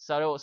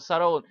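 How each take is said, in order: First: Subtle said with the B sounded, sub-tle; the wrong way, voicing the B in subtle; the silent B pronounced; wrong pronunciation. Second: Subtle said as suttle, B silent; correct pronunciation. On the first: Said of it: "ตรงนี้ไม่อ่าน subtle นะฮะ". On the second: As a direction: say subtle with no B at all, suh-tl. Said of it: "อ่าน subtle เหมือนไม่มี B เลย". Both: Shown as a demonstration.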